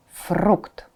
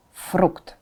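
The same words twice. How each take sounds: The two takes are said the same way.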